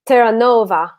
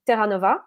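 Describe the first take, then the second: First: The name is said with Italian pronunciation. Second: The name is said with French pronunciation.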